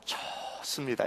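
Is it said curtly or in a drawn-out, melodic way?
melodic. It is said drawn out with a lilting, friendly melody.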